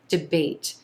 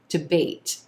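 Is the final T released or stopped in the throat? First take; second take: released; released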